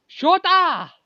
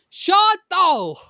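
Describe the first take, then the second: First: Loud, high call of Shota; shouting a name. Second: Loud, high call of Shoto; shouting a name. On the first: Calling out to Shota, loud and high. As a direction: yell Shota across the room. Calls again, corrected name. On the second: Calling out to Shoto, loud and high. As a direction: yell the name across the room. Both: Acted.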